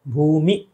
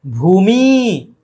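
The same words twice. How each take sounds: First: भूमि with a brief "mi"; short final i. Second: भूमि said as "bhoomeee"; wrong long ending. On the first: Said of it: "छोटी की मात्रा". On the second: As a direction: slowly stretch मि in भूमि. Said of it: "भूमि गलत है". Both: Shown as a demonstration.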